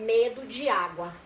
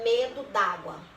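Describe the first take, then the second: First: The two vowels are said as separate sounds. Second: The two vowels merge into one sound.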